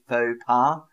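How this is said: It is said with an English accent. "that's how an English person would say it. We say faux pas"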